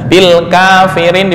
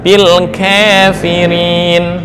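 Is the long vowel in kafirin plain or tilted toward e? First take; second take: plain; tilted. First: The long a is said as a plain a. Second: The long a is tilted toward an e sound.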